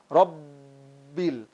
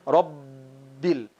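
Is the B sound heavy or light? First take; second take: heavy; heavy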